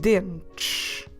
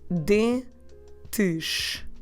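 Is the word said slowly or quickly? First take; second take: quickly; slowly. First: The word is said quickly and naturally. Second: The word is said slowly and carefully.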